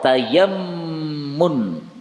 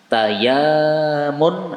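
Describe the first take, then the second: First: The vowel after y is short, doubled m. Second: The vowel after y is long, single m. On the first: "yaknya pendek, mimnya ditasdid" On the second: "yaknya panjang"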